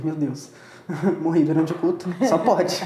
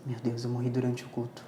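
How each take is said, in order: First: Says it with a laugh, louder, half joking; laughing disbelief. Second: Softer, low, stunned as it sinks in; quiet realisation. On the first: Speaker retelling waking in an empty place, laughing disbelief. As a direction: laugh through the shock of dying mid-service. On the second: Speaker retelling dawning realisation of dying mid-service, quiet stunned voice. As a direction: say it under your breath, taking it in. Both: Retold or imitated.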